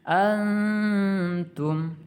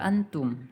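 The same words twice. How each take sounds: First: The n is softened into a held nasal hum. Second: The n sound is said fully and clearly. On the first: The speaker calls it right. "sedikit ditahan dengan dengungan" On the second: The speaker calls it wrong. "tidak dibaca juga antum"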